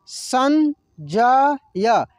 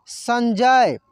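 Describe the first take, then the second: First: संजय drawn out very slowly as सं-ज-य; slow syllable by syllable. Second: Said in the usual way. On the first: Shown as a demonstration. Teacher sounds out the word slowly for students. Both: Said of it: "कैसे इसको पढ़ेंगे".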